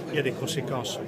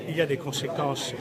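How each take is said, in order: Both takes have the same delivery.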